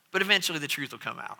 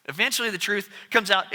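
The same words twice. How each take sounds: First: Quiet aside. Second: Said in the usual way. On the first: Shown as a demonstration.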